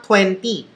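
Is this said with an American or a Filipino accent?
Filipino. It is said with a Filipino accent. The speaker calls it wrong. "it's not twenty"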